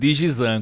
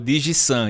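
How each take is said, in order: First: The middle consonant is a voiced z sound. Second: The middle consonant is a voiceless s sound. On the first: The speaker calls it wrong. "eu tô falando Digizan" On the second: The speaker calls it right. "Eu vi que você falou Digisan"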